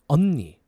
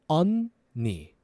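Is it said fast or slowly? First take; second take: fast; slowly. First: It is said faster. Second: It is said slowly.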